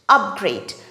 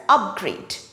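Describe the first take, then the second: First: The stress is on the first syllable. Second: The stress is on the first syllable.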